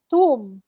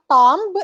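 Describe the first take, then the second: First: Tomb as TOOM, silent b; correct tomb. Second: Tomb with the b sounded; wrong tomb. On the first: Teacher correcting the student's tomb. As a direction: say tomb without the b. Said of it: "it's tomb". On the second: Teacher showing tomb with the b. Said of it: "It's not tomb". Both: Shown as a demonstration.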